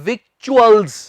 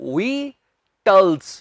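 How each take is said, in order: First: It is said with a k and ch sound. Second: It is said as two syllables with a plain t. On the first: The speaker calls it wrong. "ਨਾ ਹੀ ਏਦਾਂ ਕਹਿਣਾ ਹੈ victuals" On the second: The speaker calls it right. "ਧਿਆਨ ਨਾਲ ਸੁਣੋ"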